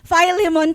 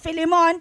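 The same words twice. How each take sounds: First: The name is said with English pronunciation. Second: The name is said with Tagalog pronunciation. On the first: The speaker calls it right. "sabi sa English Philemon pala ang tamang pronunciation" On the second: The speaker calls it wrong. "sa Tagalog Philemon"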